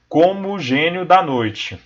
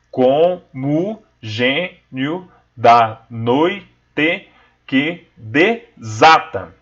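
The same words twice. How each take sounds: First: "Como o gênio da noite" with "mo" and "o" merged, slow; joined vowels. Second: "Como gênio da noite que desata" split syllable by syllable, very slow; syllable counting. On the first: Teacher showing merged vowels to students, slow. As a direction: run "Como o" together as one syllable, slowly. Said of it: "Como o mo junta-se com o o". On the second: Teacher counting syllables for students, very slow and separated. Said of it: "vamos contar aquelas sílabas poéticas". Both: Shown as a demonstration.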